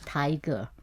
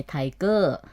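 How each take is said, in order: First: Tiger with the first syllable stressed, English style. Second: Tiger said the Thai way, second syllable stressed; Thai pronunciation. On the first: Explaining English word stress to listeners, tiger stressed up front. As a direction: hit the "tai" of tiger, let the end drop. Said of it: "stress on the first word". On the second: Showing how Thais say English words, tiger stressed on the end. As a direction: lean on the "ger" of tiger, as in Thai. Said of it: "in Thai we say tiger". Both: Shown as a demonstration.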